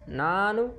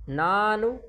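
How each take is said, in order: The two takes are said the same way.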